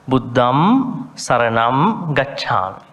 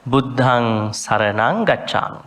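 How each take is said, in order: First: Slow "Buddham Saranam" with lips closed on a held m; intoned "Buddham Saranam Gacchami" with clear m endings; M-sound endings. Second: "Buddhang Saranang" with ng endings, intoned; chanted "Buddhang Saranang Gacchami" with ng sounds; normal nasal ending. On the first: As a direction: hum the final m of "Buddham" and "Saranam". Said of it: "M sound". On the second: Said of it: "the nasal, normal nasal". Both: Shown as a demonstration.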